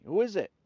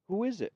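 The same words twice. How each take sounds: First: Startled. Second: High startled question. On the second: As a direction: jolt awake and ask. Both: A narrator's reading. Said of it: "Mo wakes up suddenly".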